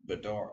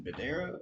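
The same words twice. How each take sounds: First: Badara with an open "ar", ba-DAR-a; second pronunciation option. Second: Badara with an "air" vowel, ba-DAIR-a; first pronunciation option. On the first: Host unsure of a player's name, trying Badara as ba-DAR-a. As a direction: say Badara as buh-DAHR-uh. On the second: Host unsure of a player's name, trying Badara as ba-DAIR-a. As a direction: say Badara as buh-DARE-uh. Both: Shown as a demonstration. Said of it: "can never get these pronunciations correct".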